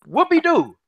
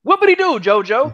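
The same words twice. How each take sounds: First: Mocking "whoopee-doo", higher and drawn out; mock cheer, higher pitched; sarcastic whoopee-doo. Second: "Whoopee-doo" pushed higher still, mock-cheering; exaggerated mock celebration. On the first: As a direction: sneer it like it's nothing special. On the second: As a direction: rub it in even harder. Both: Mocking a rival's small win.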